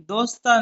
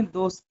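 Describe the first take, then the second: First: دوستا said with a full final a, dos-TAA; the wrong way, ending دوستا on an open aa; wrong reading dosta. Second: दोस्त said dost, the s and t clipped together with no final vowel; correct reading dost. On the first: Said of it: "दोस्ता नहीं पढ़ेंगे". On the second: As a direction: say दोस्त as one closed syllable, t closed off at the end. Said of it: "इसको पढ़ेंगे दोस्त". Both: Shown as a demonstration.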